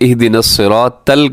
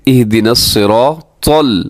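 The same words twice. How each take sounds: First: The t sound is light and thin. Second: The t sound is heavy and thick. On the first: The speaker calls it wrong. "इस तो की जगह ये ता पढ़ देते हैं" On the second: The speaker calls it right. "इसको मोटा पढ़ना है"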